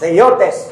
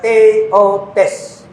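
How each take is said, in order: First: The syllables are joined into one smooth word. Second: The syllables are said separately with breaks.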